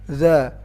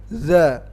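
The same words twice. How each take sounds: Both takes have the same delivery.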